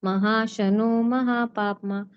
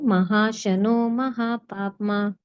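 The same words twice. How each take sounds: The two takes are said the same way.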